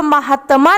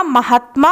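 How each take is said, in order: First: महात्मा said as म-हा-त-मा with a full extra a sound after त; teacher sounding out the wrong form महात्मा, four beats; teacher गलत रूप महात्मा को 'महातमा' बोलती है; wrong spelling said. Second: महात्मा said as म-हात्-मा with the half त joined to मा; teacher giving the right form महात्मा in three tight beats; teacher सही रूप महात्मा को 'महात्मा' जोड़कर बोलती है; correct form. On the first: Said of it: "तो महात्मा नहीं होता". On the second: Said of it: "महात्मा होता है". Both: Shown as a demonstration.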